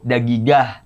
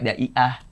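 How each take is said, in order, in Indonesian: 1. Konsonan tengahnya g keras. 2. Konsonan tengahnya dihilangkan. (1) "kalau ngomong sama cowok jadi dag" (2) "kalau misalnya ke cewek daiah"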